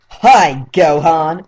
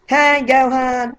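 First: Said in the usual way. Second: High-pitched, slow cartoon voice; high anime character voice, drawn out; Japanese voice-actor impression. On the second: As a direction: do the squeaky Japanese dub voice. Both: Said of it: "I'm gonna do the Japanese voice".

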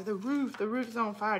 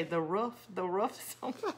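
First: "roof" with a long oo, pitched up slightly; long-vowel "roof". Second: "roof" said like "ruff", questioning rise at the end; short-vowel "roof". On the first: Recalling her own ball-game chant, long-oo "roof". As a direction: chant it with "roof" rhyming with "proof". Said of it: "we would all say". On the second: Asking viewers if they chant it so, short-vowel "roof". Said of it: "Do you say". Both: Shown as a demonstration.

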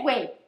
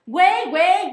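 First: Said in the usual way. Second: "güey, güey" yelled much louder and higher; "güey, güey" as a furious mock bark; shouted güey. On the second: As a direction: explode on "güey, güey" as if fed up. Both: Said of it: "Ladré con todas mis fuerzas".

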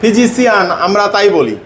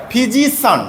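First: ফিজিশিয়ান said the usual way everyone says it; showing the mistake in ফিজিশিয়ান; common wrong pronunciation. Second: ফিজিশিয়ান with the ending said clearly as সন; correct pronunciation. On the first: Teacher shows pupils the common wrong ফিজিশিয়ান. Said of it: "এটা আমরা ভুল উচ্চারণ করি।". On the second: Teacher models the correct ফিজিশিয়ান for the pupil. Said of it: "তাহলে এটা হবে". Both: Shown as a demonstration.

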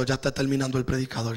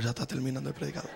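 First: Said in the usual way. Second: Casi susurrado y rápido; quiet aside. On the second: Shown as a demonstration. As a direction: dilo bajito y deprisa, como un secreto. («ya está terminando el predicador» dicho muy bajo y rápido) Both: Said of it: "Diga al que está a tu lado".

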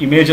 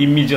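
First: ഇമേജ് as "i-MAYJ"; long "-ayj" ending on ഇമേജ്; common mispronunciation. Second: ഇമേജ് as "IM-ij"; short "-ij" ending on ഇമേജ്; correct pronunciation. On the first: Teacher showing the usual error, ഇമേജ് as "i-MAYJ". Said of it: "എന്ന് പറയരുത്". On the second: Teacher modelling for learners, ഇമേജ് as "IM-ij". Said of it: "എന്ന് പറയണം". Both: Shown as a demonstration.

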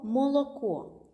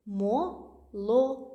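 First: Said in the usual way. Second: «Мо-ло-ко» slow, three clear syllables; syllabified slowly. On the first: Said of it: "наприклад, слово". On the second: Shown as a demonstration. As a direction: tap out «Мо-ло-ко» syllable by syllable. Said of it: "всі три склади відкриті". (повільно по складах «Мо-ло-ко»)

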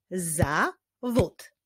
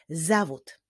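First: "Zawód" as za, pause, wód; syllable by syllable. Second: Said in the usual way. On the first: Shown as a demonstration. Teacher leading a clapping exercise, "Zawód" in separated syllables. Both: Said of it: "wyklaszczmy sylaby w wyrazie zawód".

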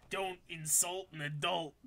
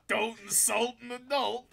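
First: Said in the usual way. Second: Higher, wailed comic line; exaggerated high-pitched repeat; mock outrage. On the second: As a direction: wail it higher, hammed-up.

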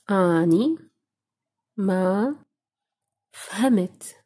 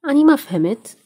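First: أني ما فهمت split into single words with pauses between. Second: Said in the usual way. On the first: Shown as a demonstration. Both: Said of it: "how to say".

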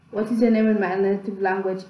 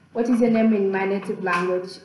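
The two takes are said the same way.

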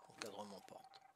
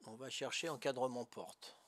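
First: Whispered to himself. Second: Said in the usual way. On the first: Real, not acted. Player muttering the instruction back to himself, whispered. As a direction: breathe the words under his breath.

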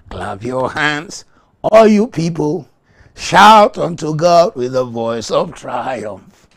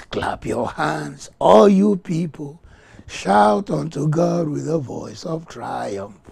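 First: Slow loud proclamation; proclaimed psalm. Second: Slow, emphatic scripture read; psalm reading. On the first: Pastor rereading the psalm with rising power. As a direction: read it again with more force. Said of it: "I take it again". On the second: Pastor reading Psalm forty-seven to the church. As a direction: declaim the verse slowly. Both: Real, not acted.

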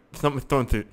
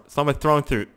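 The two takes are said the same way.

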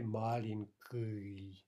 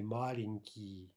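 First: "malinki" said slowly with a hard ы for the last vowel; wrong hard ending. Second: "malinki" said slowly with a clear ee ending; correct soft ending. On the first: Teacher showing what we don't say, "malinki" with wrong ы ending. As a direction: drag out "malinki" ending in a backed ooy-like ы. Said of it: "We don't say malinki". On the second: Teacher showing what we say, "malinki" with correct ee ending. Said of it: "We say malinki". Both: Shown as a demonstration.

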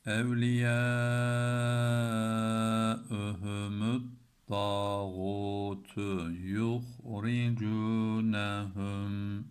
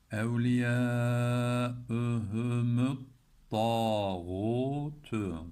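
First: Very slow, the long vowels held; drawn-out reading with a doubled t; slow tajweed reading. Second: Evliyaühümüt slides into a stressed double t in tağutu, slow; slow reading with the t doubled. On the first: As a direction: stretch Evliyaühümüt and swallow it into tağutu. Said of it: "Bakalım nasıl okuduk". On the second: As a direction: hold the doubled t before tağutu. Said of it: "görüyorsunuz bu şeddeyi". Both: Shown as a demonstration.

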